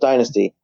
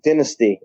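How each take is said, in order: First: The word is said with an American pronunciation. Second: The word is said with a British pronunciation. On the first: The speaker calls it right. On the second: The speaker calls it wrong.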